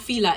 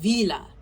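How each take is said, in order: First: The word begins with an F sound. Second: The word begins with a V sound. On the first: The speaker calls it wrong. "not Fila" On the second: The speaker calls it right. "It's v, it's Vila"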